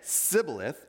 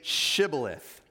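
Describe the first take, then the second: First: The word begins with an s sound. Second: The word begins with a sh sound. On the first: The speaker calls it wrong. "notice the difference, because he could not pronounce it correctly" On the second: The speaker calls it right. "Please say Shibboleth"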